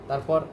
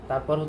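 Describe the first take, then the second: The two takes are said the same way.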